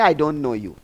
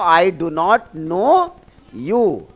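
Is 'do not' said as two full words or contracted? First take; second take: contracted; full. First: The words do not are contracted to don't. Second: The words do not are said in full.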